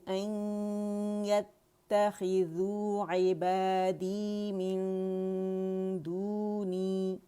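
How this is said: The recitation stops after the final word. "देखिए मैं यहाँ रुक गई"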